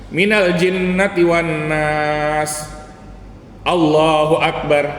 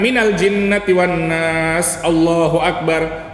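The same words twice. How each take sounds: First: A clear pause comes before 'Allahu akbar'. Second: No pause comes before 'Allahu akbar'. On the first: The takbir is separate from the surah. The speaker calls it right. "sebelum ruku setelah membaca surat ya" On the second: The takbir seems part of the surah. The speaker calls it wrong. "Jangan ... seolah-olah Allahu akbar itu bagian dari surat An-Nas"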